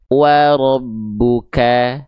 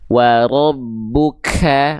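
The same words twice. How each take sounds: First: The k is released with a light, natural puff. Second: The k is released with a heavy puff of breath. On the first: The speaker calls it right. "Cukup dipercikan dengan natural saja" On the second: The speaker calls it wrong. "nah itu terlalu berlebihan"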